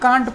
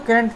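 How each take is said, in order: First: It is said in a British accent. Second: It is said in an American accent. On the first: "British English में से हम कांट पढ़ सकते हैं" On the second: "American English में बोलेंगे तो केंट"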